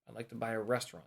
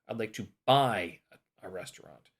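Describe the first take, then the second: First: The stress falls on the word restaurant. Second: The stress falls on the word buy. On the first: A restaurant rather than something else. "not a" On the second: Buying rather than doing something else. "Emphasis on buy"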